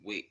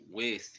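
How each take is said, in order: First: The word ends with a t sound. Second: The word ends with a th sound. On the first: It puts the speaker at a high vibration. The speaker calls it right. "just say T" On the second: It is a low vibrational word. The speaker calls it wrong. "instead of saying the H at the end"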